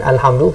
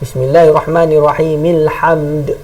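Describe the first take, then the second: First: The opening a sound is clearly pronounced. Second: The opening a sound is dropped in linking. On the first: The word starts the reading. "kita mula kita dia bunyi" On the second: The word is joined to what comes before. "jadi tak bunyi"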